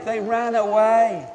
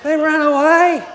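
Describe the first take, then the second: First: Said in the usual way. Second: Loud, high exclamation; calling out. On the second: Acted. Preacher telling children what the women did, in a loud cry. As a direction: blurt it out at full voice.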